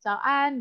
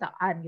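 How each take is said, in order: First: The word is said cheerfully, with lively intonation. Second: The word is said flatly, without lively intonation. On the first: The speaker calls it right. "harus ada nada kayak ... bahagianya ketemu orang" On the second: The speaker calls it wrong. "Jangan gitu ya"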